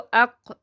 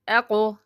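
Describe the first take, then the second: First: The final q stops flat without any bounce. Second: The final q bounces with an echoing vowel. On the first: The speaker calls it wrong. "इस तरह नहीं पढ़ना, झटका देकर पढ़ना" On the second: The speaker calls it right. "हरूफ कलकला की मश्क देखते हैं कि इनको अदा कैसे करना है"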